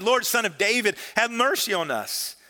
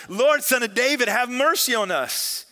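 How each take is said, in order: First: Raised, pleading call, held back from full volume; mild shout. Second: High, loud cry for mercy; louder shout. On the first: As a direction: read it as a moderate cry for mercy. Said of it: "they shouted". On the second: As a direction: shout it insistently, pleading. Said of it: "shouted all the louder". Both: A narrator's reading.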